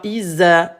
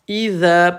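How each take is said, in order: First: The middle consonant is a 'z' sound. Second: The middle consonant is a voiced 'th' sound. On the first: The speaker calls it wrong. "pas Isa. Isa, c'est comme Isa. Isabelle" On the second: The speaker calls it right. "on met la langue entre les incisives"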